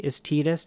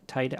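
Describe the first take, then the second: First: Titus as Tee-dus, the other way; Tidus pronunciation. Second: Titus said as TIE-tus; Titus with a hard t, the way she says it; Titus pronunciation. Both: Shown as a demonstration. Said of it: "I say Titus".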